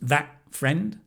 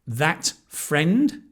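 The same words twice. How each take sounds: First: The T in that blends into the next sound. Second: The T in that is fully released.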